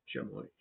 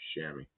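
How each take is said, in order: First: The word is said with a French pronunciation. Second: The word is said with an English pronunciation. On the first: "tries to pronounce it the French way" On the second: "what I was taught was it's a chamois"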